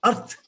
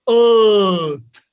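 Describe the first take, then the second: First: EARTH short with an audible R; wrong, R sounded. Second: EARTH loud with a long "uh", no R; English, silent R. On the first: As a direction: say EARTH quickly as "urrth". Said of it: "So it is not earth". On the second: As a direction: stretch EARTH into "uhth". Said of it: "We don't even pronounce the R". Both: Shown as a demonstration.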